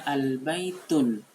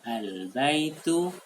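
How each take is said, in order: First: The word ends with an added n sound. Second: The word ends on a vowel without n. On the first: The speaker calls it wrong. "Jangan dibaca al-baitun, sangat keliru" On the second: The speaker calls it right. "Yang betul adalah al-baitu"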